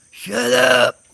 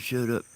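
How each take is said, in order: First: Loud, high holler across the woods; hollered shout. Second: Said in the usual way. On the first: Retold or imitated. Hollering at two men cussing in the woods, loud shout. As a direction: yell it sharply at full voice. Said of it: "I hollered out". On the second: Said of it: "I hollered".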